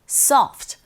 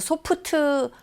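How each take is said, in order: First: It has English-style sounds ending in a bare consonant. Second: It has Korean-style syllables with an added final vowel. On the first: The speaker calls it right. "정확한 발음은 soft" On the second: The speaker calls it wrong. "우리식으로 발음해서 소프트"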